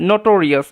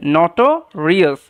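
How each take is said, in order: First: নোটোরিয়াস with a closed "no" at the start; long O pronunciation. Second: নটোরিয়াস with an open "naw" at the start; open first vowel. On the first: Teacher offering the other accepted pronunciation, long O. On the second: Teacher offering one accepted pronunciation, open first vowel. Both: Shown as a demonstration. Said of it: "এরকমভাবে উচ্চারণটা হবে".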